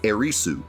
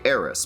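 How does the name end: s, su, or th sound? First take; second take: su; s. First: The name ends in an added su syllable. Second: The name ends in a plain s sound. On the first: This keeps the original Japanese form. "then you would say Erisu" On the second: This follows an old mistranslated spelling. "Some people might even say Eris because it was spelled that way in the original game"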